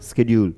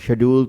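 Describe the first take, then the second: First: The word begins with an 'sk' sound. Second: The word begins with an 'sh' sound. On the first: It sounds more educated. The speaker calls it right. "ज्यादा पढ़ा लिखा है ना, वो थोड़ा मूसा बना के स्केड्यूल बोल पड़ता है" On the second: It sounds less educated. The speaker calls it wrong. "थोड़ा सा इलिटरेट पर्सन वाला सा लगने लग गया है"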